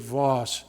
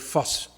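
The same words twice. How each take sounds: First: The name is said with an English pronunciation. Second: The name is said with a German pronunciation. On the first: "you English speakers would say Voss" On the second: "we're going to use his German pronunciation today"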